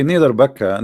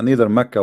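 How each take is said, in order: First: "Mecca" pronounced BAK-ka, starting on B; Mecca said as Bakka. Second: "Mecca" pronounced MAK-ka, starting on M. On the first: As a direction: swap the M of "Mecca" for a B. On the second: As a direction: keep a clear M at the front of "Mecca". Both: Shown as a demonstration. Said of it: "Is it Mecca or Mecca?".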